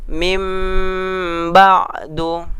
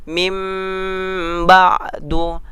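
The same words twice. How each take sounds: The two takes are said the same way.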